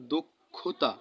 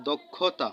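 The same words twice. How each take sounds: First: দুক্ষুতা with u after d and after kh, dukkhuta; pronounced dukkhuta. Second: Said in the usual way. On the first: Shown as a demonstration. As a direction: say দুক্ষুতা as duk-khu-ta. (দ আর ক্ষ-এর পরে উ দিয়ে দুক্ষুতা) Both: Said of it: "দর শেষে কি ও উচ্চারিত হয়েছে".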